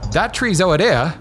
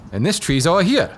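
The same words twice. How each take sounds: First: "ohia" said as "oh-a-DEA", like "over there"; punning local pronunciation. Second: "ohia" said as "oh-a-HEE-a", like "over here"; punning local pronunciation. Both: Retold or imitated. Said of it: "imagine saying that with, like, a thick Hawaiian accent".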